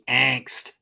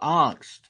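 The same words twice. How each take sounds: First: It is said with an American pronunciation. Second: It is said with a German pronunciation.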